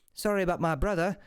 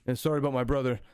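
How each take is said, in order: First: Lightly voiced brother, pitched slightly up; lightly played hooded man apologizing; first brother's apology. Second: Lightly voiced brother, pitched slightly down; understated echo of the first apology; second brother's apology. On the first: First hooded brother apologizing to the party, lightly voiced and lifted. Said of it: "one of them's like". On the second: Other hooded brother apologizing to the party, understated and lower-toned. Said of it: "the other one's like".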